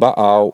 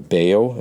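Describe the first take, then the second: First: The name is said in a non-English way. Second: The name is said in an English way.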